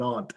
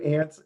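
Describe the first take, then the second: First: Aunt said AHNT, broad vowel. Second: Aunts said ANTS, vowel as in cat. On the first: Joking about daughter's relatives, aunt pronounced AHNT. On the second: Joking about daughter's relatives, aunts pronounced ANTS. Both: Shown as a demonstration. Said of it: "everybody pronounces the terms different".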